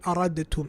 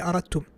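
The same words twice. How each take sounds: First: The d and t are pronounced as separate sounds. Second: The d merges into the t as one sound. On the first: The speaker calls it wrong. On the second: The speaker calls it right. "He will say"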